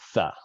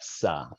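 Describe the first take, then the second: First: The syllable begins with a th sound. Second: The syllable begins with an s sound. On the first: The speaker calls it right. "But it really should be "tha,"" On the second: The speaker calls it wrong. "so that's why you have "sa.""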